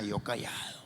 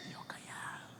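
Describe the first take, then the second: First: Said in the usual way. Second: Whispered, much softer aside; whisper, keeping still. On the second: Shown as a demonstration. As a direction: whisper it like hiding.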